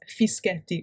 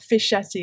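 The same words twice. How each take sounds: First: The name has an Italian pronunciation. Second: The name has an English pronunciation. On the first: The speaker calls it right. "it's Fischetti, which is my name" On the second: The speaker calls it wrong. "Just like it's not Fischetti"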